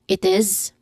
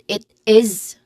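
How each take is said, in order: First: The two words are blended into one. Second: The two words are said separately. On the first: The speaker calls it right. "We try to blend them" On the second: The speaker calls it wrong. "We usually do not really separately"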